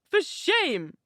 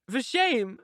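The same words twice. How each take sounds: First: Much higher, sharper second rebuke; angrier repeat. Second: A first, firm mild rebuke; angry. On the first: Isabella rebuking Catherine again, angrier and higher. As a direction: let the anger rise on the repeat. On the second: Isabella rebuking Catherine, mildly angry. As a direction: scold her, still holding back. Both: A narrator's reading. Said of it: "she repeated angrily".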